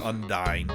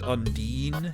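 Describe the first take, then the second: First: The last syllable rhymes with dine. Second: The last syllable rhymes with dean. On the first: The speaker calls it right. "but it is Undyne" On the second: The speaker calls it wrong. "I first time I played this game, I pronounced that Undine"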